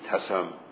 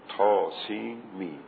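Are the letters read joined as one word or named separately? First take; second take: joined; separate. First: The letters are blended into one word. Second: Each letter is named separately by its name. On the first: The speaker calls it wrong. "نمیگیم تسم مثلا که به مرکب بخونیم" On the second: The speaker calls it right. "یعنی حروف را از هم جدا میکنیم"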